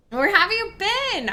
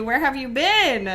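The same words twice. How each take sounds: First: Higher, eager question; excited. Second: Said in the usual way. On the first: Real, not acted. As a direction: ask it again, delighted. Repeated with more excitement.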